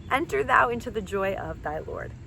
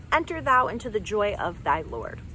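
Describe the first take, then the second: Both takes have the same delivery.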